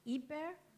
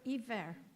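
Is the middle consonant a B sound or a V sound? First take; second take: B sound; V sound. First: The middle consonant is a B sound. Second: The middle consonant is a V sound. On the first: "can either be a B sound" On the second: "or a V sound"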